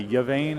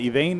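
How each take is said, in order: First: The name begins with a y sound. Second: The name begins with an ee sound. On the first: The speaker calls it wrong. "I was hearing people say Yvain, and I was like, no, that can't be right" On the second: The speaker calls it right. "Yvain is the correct pronunciation"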